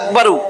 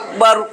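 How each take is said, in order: First: The word ends with a short u vowel. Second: The word ends on the consonant r. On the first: This is the full underlying form. "আসলে আকবারু" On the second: This is the form used when stopping. "থামলে সাকিন দিয়া থামতে হয়"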